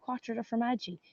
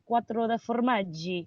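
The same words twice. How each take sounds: First: It is said in the speaker's own Irish accent. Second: It is said with an Italian-style accent.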